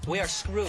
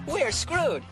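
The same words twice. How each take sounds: First: It is said in a defeated, gloomy tone. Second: It is said in an upbeat, cheerful tone.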